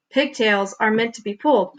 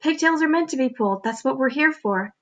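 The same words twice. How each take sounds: First: Said in the usual way. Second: Lightly higher, persuasive little voice; a hint of a sly talking pigtail; coaxing pigtail voice. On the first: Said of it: "Paul con-, con-, concluded". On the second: A narrator's reading. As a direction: talk Paul into it as the pigtail. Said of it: "said the pigtail".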